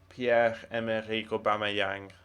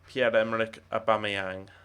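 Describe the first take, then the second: First: The name is pronounced with French sounds. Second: The name is pronounced with English sounds. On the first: "given that he's from the Gabon, which is a French-speaking country, it's probably" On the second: "I know it's"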